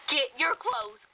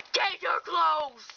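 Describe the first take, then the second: First: Said in the usual way. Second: Slow, tearful shouted command; emphatic, drawn-out weepy demand; upset mother's order. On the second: Acted. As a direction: order it slowly, half crying, half shouting.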